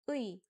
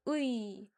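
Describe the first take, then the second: First: It is said fast as one sound. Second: It is said slowly with two parts.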